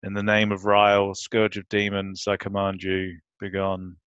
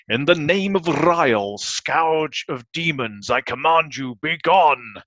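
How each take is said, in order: First: Put-on bored teenager. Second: Grand, commanding spell casting; dramatic incantation. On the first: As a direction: say it like you couldn't care less. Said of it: "who sounds like a bored teenager". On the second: Retold or imitated. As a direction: intone it like a wizard's command. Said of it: "I will try and deliver them in the way that fake Stan Lee delivered them".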